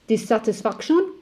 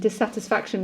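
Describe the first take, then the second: First: It is said with a French accent. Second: It is said with an English accent.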